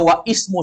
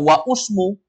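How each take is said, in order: First: An 'i' vowel is sounded before 'smu'. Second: A 'u' vowel is sounded before 'smu'. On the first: "Dia dibaca wa ismu saja salah" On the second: "apalagi dibaca wa usmu"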